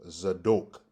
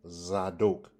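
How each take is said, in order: First: The second syllable has an O vowel. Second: The second syllable has an O vowel.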